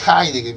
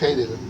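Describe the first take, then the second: First: The name is said the original foreign way. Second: The name is read as Spanish spelling. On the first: This is the correction people insist on. "Cuando la gente dice, no, es Heidegger" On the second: This is reading the name as it is written. "Pues se puede leer Heidegger, se puede leer"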